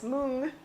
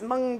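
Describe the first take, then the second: First: The word is said with an Indian pronunciation. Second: The word is said with an American pronunciation. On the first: "the Indian people that I've talked to says mung" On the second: "our American pronunciation is mung beans"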